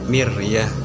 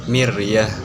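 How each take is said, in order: No difference in how they are said.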